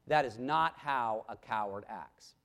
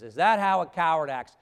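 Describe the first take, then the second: First: Low, softer answer, weight on "not"; grave denial. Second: Loud, pointed question on "coward acts"; rhetorical challenge. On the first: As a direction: bring "That is not how a coward acts" down low and firm. Answers own rhetorical question. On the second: Rhetorical challenge, then answered. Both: Real, not acted.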